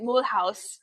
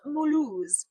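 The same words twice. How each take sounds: First: The name is pronounced the German way. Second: The name is not pronounced the German way. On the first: The speaker calls it wrong. "I had been saying it Mulhouse because that is the German pronunciation" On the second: The speaker calls it right. "but apparently it is Mulhouse"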